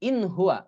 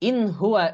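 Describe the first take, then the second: No difference in how they are said.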